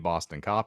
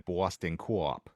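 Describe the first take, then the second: First: The word cop is one short syllable. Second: The word cop is drawn out into two syllables. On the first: The speaker calls it wrong. "It is not a Boston cop" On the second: The speaker calls it right. "I am correcting your pronunciation"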